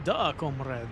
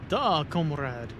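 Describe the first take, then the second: First: A hammed-up Russian accent on "Duh, comrade", with Duh said as Da; a jokey fake Russian "Da, comrade"; a lightly voiced Russian accent, playing the comrade; mock Russian accent. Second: A slow, heavy fake Russian "Duh, comrade", with Duh drawn out as Da; a hammed-up Russian accent, leaning on Da; agreeing in a bad Russian accent, slow and deliberate; mock Russian accent. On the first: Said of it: "My terrible accent". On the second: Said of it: "Typical Russian sentence".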